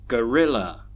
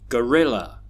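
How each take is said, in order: Both takes have the same delivery.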